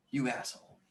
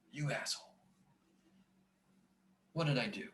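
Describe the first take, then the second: First: Said in the usual way. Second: Breathy whisper under his breath; whispered self-scolding. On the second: Real, not acted. Scene: teacher cursing his own mistake, in a whisper. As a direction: hiss it at yourself, barely voiced. Scolding himself over math error.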